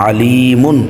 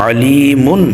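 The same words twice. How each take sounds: Both takes have the same delivery.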